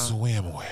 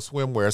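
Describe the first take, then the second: First: It is said in a slow, seductive way. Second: It is said in a plain, casual way.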